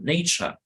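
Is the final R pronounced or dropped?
dropped. The final R is dropped. "pronunciamos nature en inglés británico"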